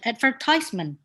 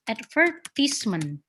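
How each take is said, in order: First: It is said in an American accent. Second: It is said in a British accent. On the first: "you will pronounce it advertisement in America" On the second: "British and also like Australia, ... they pronounce it advertisement"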